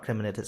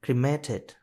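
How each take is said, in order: First: "cremated" said as "criminated", with an extra "-min-" syllable; the mistaken "criminated" version of "cremated"; "cremated" mispronounced as "krim-i-nay-ted"; wrong pronunciation. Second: "Cremated" said cleanly as "kree-may-ted", no extra syllable; the fixed "Cremated" with three beats, stress on "may"; "Cremated" pronounced "kree-MAY-ted"; corrected pronunciation. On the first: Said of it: "not cremated". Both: Shown as a demonstration.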